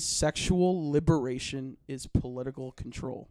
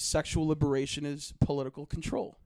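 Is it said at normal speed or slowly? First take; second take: slowly; normal speed. First: It is said slowly. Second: It is said at normal speed.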